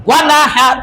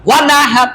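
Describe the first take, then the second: The two takes are said the same way.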